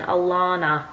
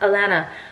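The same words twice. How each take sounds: First: The middle vowel sounds like lawn, American-style. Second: The middle vowel rhymes with banana.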